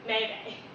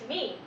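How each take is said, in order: First: Two syllables, both like 'may'. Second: One syllable, rhyming with 'team'. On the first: The speaker calls it wrong. "or Maymay" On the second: The speaker calls it right. "The correct way of pronouncing the word is meme"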